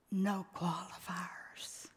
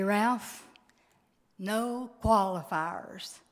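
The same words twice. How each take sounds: First: Soft breathy whisper, no voice at all; husband's whisper. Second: Said in the usual way. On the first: Retold or imitated. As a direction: breathe it like a dying husband's last plea. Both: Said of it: "He'd look at me and he'd say".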